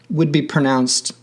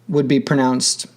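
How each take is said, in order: No difference in how they are said.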